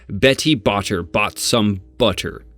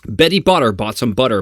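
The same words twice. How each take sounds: First: The middle T's are said as crisp T sounds. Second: The middle T's sound like soft D sounds.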